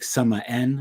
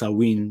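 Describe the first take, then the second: First: It is sounded out following its written letters. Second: It is said without following its written letters. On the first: The speaker calls it wrong. "even though it's spelled S A M H A I N, like Samaen" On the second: The speaker calls it right. "but it's pronounced Samhain"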